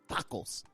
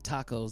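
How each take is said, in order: First: It is said Spanish-style, with strong emphasis. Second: It is said in a plain American English way. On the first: The speaker calls it right. "they say it like tacos" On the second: The speaker calls it wrong. "they don't say like tacos"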